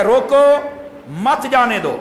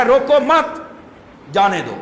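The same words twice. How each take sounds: First: روکو said high and sharp as a command, then a pause, then مت جانے دو; "روکو" rising alone, break, then "مت جانے دو" falling together; pause after stop. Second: "روکو مت" said together high, with the stress on مت, then a pause before جانے دو; group "روکو مت" as one phrase, break, then "جانے دو"; pause after don't. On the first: Preacher showing the congregation the first meaning, pause after روکو. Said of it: "اس کے دو مفہوم ہیں". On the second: Preacher showing the congregation the second meaning, pause after مت. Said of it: "دوسرا ہے". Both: Shown as a demonstration.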